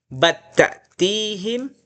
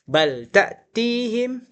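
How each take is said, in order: First: The L merges into the following consonant, doubling it. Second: The L is clearly pronounced before the next consonant. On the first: "kemudian idgham" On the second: "versi idhar"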